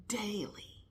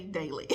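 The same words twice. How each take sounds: First: Breathy hushed "daily."; a whispered, emphatic daily. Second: Said in the usual way. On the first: Shown as a demonstration. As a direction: drop "daily." to a bare whisper. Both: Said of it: "When I say daily".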